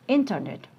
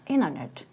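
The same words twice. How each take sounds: First: The t sound after n is pronounced. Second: The t sound after n is dropped.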